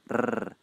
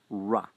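First: The r sound is rolled with a rapid trill. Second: The r sound is smooth, with the tongue curled back. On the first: This is how the sound is said in Scotland and parts of Ireland. "they tend to use a flap, or even a trill, like rrr" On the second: This is how the sound is said in the speaker's own accent. "I pronounce it as a retroflex approximant"

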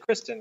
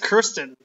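First: The r sound comes before the first vowel. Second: The r sound comes after the first vowel. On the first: The speaker calls it wrong. "So you pronounced it wrong. You said Kristen" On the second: The speaker calls it right. "I think it's Kirsten"

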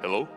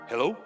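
First: It is said in a put-on pastor voice. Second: It is said in an ordinary voice.

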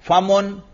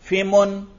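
First: The first syllable has the vowel a. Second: The first syllable has the vowel i. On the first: The speaker calls it right. "अगर फा पर फतहा पढ़ें" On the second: The speaker calls it wrong. "अगर फा पर जेर भी पढ़ें"

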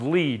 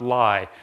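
First: The vowel sounds like 'ee'. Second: The vowel sounds like 'eye'. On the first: The speaker calls it right. "So that's pronounced Lie" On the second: The speaker calls it wrong. "not Lie"

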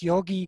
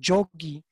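First: It begins with a y sound and o. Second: It begins with a j sound and o. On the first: This is the Sanskrit form. "So the Sanskrit yogi" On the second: This is the form used elsewhere in North India. "In other parts of North India, it's pronounced Jogi"

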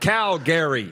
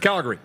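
First: The name is said in separate parts. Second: The name is run together as one word. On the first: The speaker calls it wrong. "It's not Calgary, right?" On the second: The speaker calls it right. "It's Calgary. It's one word"

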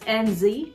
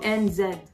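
First: The final letter is said as zee. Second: The final letter is said as zed. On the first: "they don't call New Zealand as NZ" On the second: "it's called NZ"

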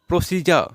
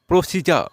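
The two takes are said the same way.

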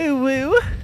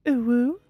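First: It is said in a crazier, obnoxious voice. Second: It is said in a soft feminine voice.

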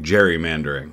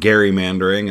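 First: The word begins with a J sound. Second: The word begins with a hard G sound. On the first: This is the form commonly used today. The speaker calls it wrong. "started saying gerrymandering" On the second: This is the original form matching the namesake. The speaker calls it right. "we stopped saying gerrymandering"

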